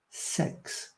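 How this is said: The vowel sounds close to the e in sex. "I think they say sex"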